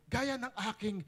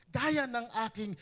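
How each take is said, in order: Both takes have the same delivery.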